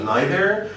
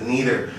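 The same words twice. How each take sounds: First: It is said the way British speakers say it. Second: It is said the way American speakers say it. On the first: "British folk usually pronounce it uh" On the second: "Americans usually pronounce it"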